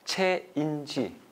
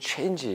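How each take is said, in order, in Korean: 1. 한 음절씩 또박또박 발음해요. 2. 영어 억양으로 매끄럽게 발음해요. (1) "조금 또박또박 발음하면" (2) "버터를 발라서 발음하면"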